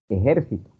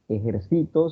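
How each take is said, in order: First: The stress is on the second syllable. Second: The stress is on the third syllable. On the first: The speaker calls it wrong. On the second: The speaker calls it right. "No decían"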